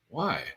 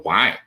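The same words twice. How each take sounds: First: It sounds gentle and curious. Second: It sounds accusing and attacking.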